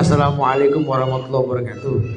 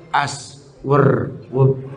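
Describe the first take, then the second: First: Every word of the greeting is fully pronounced. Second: Each word is cut to one short syllable. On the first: This is the proper greeting as traditionally taught. The speaker calls it right. "Kalau Rasul kan" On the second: The greeting is carelessly shortened. The speaker calls it wrong. "kosor salam ini kacau"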